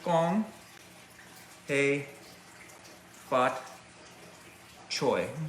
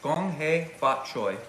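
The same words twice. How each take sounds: First: The phrase is said slowly, word by word. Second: The phrase is said more quickly. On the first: "a little slow" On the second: "Read a little bit faster"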